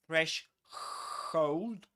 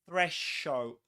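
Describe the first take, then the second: First: The word begins without a th sound. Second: The word begins with a th sound. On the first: The speaker calls it wrong. "it's not threshold" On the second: The speaker calls it right. "but threshold"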